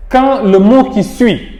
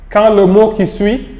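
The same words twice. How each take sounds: The two takes are said the same way.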